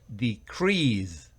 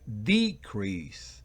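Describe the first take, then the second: First: The stress is on the second syllable. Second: The stress is on the first syllable. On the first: It is the verb, to reduce. "si es el verbo, es el acento va en la segunda y última sílaba" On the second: It is the noun, a reduction. "Si es un sustantivo, va en la primera sílaba"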